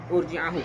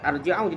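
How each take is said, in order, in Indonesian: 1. Vokal pertama adalah bunyi u membulat. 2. Vokal pertama adalah bunyi a terbuka. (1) "Hamzahnya berbaris domah" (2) "Bukan arji'ahu"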